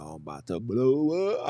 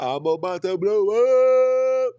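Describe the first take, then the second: First: Comic rising warning. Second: Loud, high, stretched siren on "blow up"; comic wail. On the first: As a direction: let "blow up" climb like a siren starting. First take, sliding into comic wail. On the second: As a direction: draw "blow up" out into a climbing, blaring howl. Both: Pretend.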